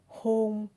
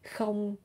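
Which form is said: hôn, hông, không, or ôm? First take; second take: hôn; không. First: It begins with an h sound and ends in n. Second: It begins with a k sound and ends in ng. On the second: "You can say không"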